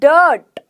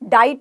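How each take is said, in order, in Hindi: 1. स्वर एक 'er' ध्वनि है। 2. स्वर एक 'eye' डिफ़्थॉन्ग है। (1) "क्या बोला? डर्ट" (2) "डाइट नहीं बोला मैंने"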